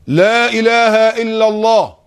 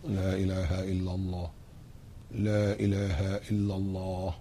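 First: Very high and loud, slowly held; loud drawn-out declaration. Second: Much softer and lower, slow; very quiet declaration. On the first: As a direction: call it out long with still lips. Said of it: "بقولها بصوت عالي أوي". (نطق عالٍ جداً وممدود بشفتين ثابتتين) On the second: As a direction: say it under your breath with still lips. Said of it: "شفايفك ثابتة أهي". (همس خافت بلا إله إلا الله دون تحريك الشفتين) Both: Shown as a demonstration.

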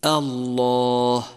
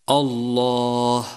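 First: الله begun with a thin, front a before the heavy lam, drawn out; slow الله with a thin opening; light hamza. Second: الله begun with a thick, dark aw-like vowel, drawn out; slow الله with a heavy opening; heavy hamza mistake. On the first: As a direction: keep the first vowel of الله light. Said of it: "والصواب أن تقول". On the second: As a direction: darken the first vowel of الله. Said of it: "ولتحذر من تفخيم الهمزة". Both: Shown as a demonstration.

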